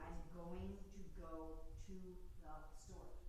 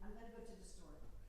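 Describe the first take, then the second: First: 'Going to' is pronounced fully and carefully. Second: 'Going to' is reduced and run together quickly. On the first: It is easier for non-native listeners to understand. "So I also try to enunciate" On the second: It is ordinary casual speech. "if I'm speaking just regular English speed"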